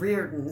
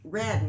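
First: The name is said with an R sound. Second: The name is said without an R sound. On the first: This is how it was said after moving to the city. "they started saying Reardon" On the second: This is how it was said in rural Georgia. "we didn't have an R in deep Georgia"

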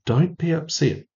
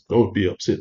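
First: It is said in a soft, gentle tone. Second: It is said in a firm, commanding tone. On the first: It is a kind reassurance. The speaker calls it right. "No, he just said" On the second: It is an order to be obeyed. The speaker calls it wrong. "he didn't say that in a commanding voice"

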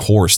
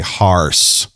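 First: It is said in a standard American accent. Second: It is said in a local Missouri accent. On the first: This is how people used to say it. "No longer are people saying horse" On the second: This is how people in Missouri say it now. "they say harse"

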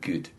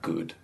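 First: The oo vowel sounds east Scottish. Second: The oo vowel sounds southern English. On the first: This is how she actually says it. The speaker calls it wrong. "She'll say, like" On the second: This is the proper way she cannot manage. The speaker calls it right. "she can't say, like"

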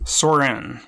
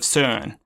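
First: The name is said with an American pronunciation. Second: The name is said with a Danish pronunciation. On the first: "The American pronunciation" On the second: "the correct pronunciation is somewhere along the lines of Søren"

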